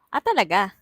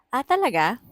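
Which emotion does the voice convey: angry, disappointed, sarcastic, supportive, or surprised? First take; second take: angry; sarcastic. First: It sounds harsh and angry. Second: It sounds mockingly cheerful and sarcastic.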